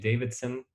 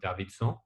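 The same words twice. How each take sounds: First: The name is said with an English pronunciation. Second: The name is said with a local Haitian pronunciation.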